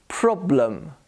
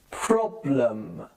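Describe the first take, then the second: First: "Problem" as "PROB-luhm"; careful "Problem" with weak second vowel; schwa demo. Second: "Problem" low and stretched, "prob-luhmmm"; drawn-out lower teaching model of "Problem"; exaggerated schwa. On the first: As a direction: neutral "uh" before the m of "Problem". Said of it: "The E becomes a schwa". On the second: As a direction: linger on "luhm" in "Problem". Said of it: "I'm trying to exaggerate". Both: Shown as a demonstration.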